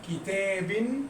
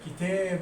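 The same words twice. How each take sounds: First: The word ends with an added -in sound. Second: The word ends with an added -un sound. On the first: "لو نونتها بالكسر كتاب" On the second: "لو هنونها تنوين بالضم يبقى كتاب"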